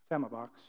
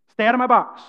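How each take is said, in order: First: Very soft, low mumble; timid, much softer and lower; timid demo. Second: Loud, firm command; bold, louder warning; bold demo. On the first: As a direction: say it meekly, barely audible. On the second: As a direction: say it boldly, projecting. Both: Shown as a demonstration. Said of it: "He was showing the difference that when you say".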